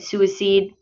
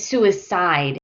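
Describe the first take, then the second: First: The last syllable does not sound like 'side'. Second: The last syllable sounds like the word 'side'. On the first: The speaker calls it wrong. "I think you said suicide" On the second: The speaker calls it right. "but it's suicide ... think of side like my side"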